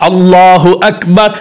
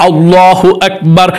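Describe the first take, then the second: Both takes have the same delivery.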